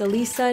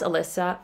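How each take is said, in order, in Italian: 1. La seconda vocale suona come 'ee'. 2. La seconda vocale suona come 'eh'. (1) "it's Alissa" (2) "not Alessa"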